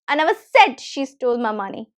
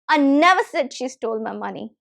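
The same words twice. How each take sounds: First: The stress falls on the word said. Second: The stress falls on the word never. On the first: It was not said aloud, but she did steal it. "when I'm stressing said" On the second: The money was never stolen at all. "just by stressing the second word"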